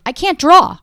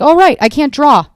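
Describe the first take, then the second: First: Loud, high cry of defeat; loud exasperated admission; exasperated blurt. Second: Loud, deadpan sudden realization; loud self-mocking realization; dry realization. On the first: Real, not acted. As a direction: burst out with it. Blurting out a confession. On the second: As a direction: say it like it just dawned on you. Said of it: "I was like".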